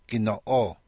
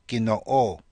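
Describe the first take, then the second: No difference in how they are said.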